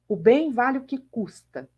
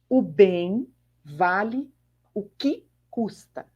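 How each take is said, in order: First: It is said at normal speed. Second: It is said slowly.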